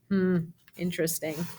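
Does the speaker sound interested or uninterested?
uninterested. It sounds bored, clearly not interested at all.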